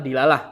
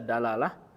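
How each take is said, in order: First: The first vowel is an i sound. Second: The first vowel is an a sound. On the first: "boleh. Tiga-tiganya ya" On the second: "Ini bisa dibaca dalalah"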